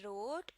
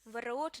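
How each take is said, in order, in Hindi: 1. शब्द सीधे R की आवाज़ से शुरू होता है। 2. R से पहले W की आवाज़ सुनाई देती है।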